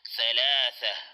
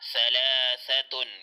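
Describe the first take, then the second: First: The word ends without the 'tun' syllable. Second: The word ends with a full 'tun' syllable.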